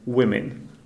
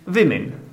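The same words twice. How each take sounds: First: The word starts with a clear W sound. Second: The word starts without a clear W sound. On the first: The speaker calls it right. "so I should really pronounce it women" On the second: The speaker calls it wrong. "Apparently, I was pronouncing it women. And that's because we don't have W sound in Czech"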